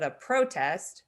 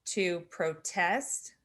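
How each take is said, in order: First: PROtest, first syllable punched; stress on first syllable. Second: Slow proTEST, the verb form; stress on second syllable. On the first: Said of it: "is a noun". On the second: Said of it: "is a verb". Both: Shown as a demonstration.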